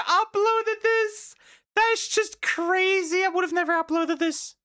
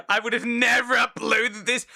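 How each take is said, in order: First: Squeaky high-pitched laughing mockery. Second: Never pushed up and louder; stress on never. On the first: Mocking the dad who posted his reaction, high squeaky voice. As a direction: squeak it out in mock disbelief. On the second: Shown as a demonstration. Reacting to the uploaded dad video, stress on never. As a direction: lean on never to show disbelief. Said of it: "repeats his own line".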